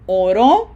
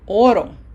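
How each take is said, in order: First: The stress falls on the last syllable. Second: The stress falls on the first syllable. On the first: Someone prayed. "which means he prayed" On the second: It refers to the metal gold. "Without the accent mark, it sounds oro"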